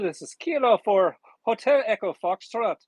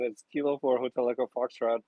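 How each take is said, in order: First: It is said in a put-on Irish accent. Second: It is said in his normal American accent.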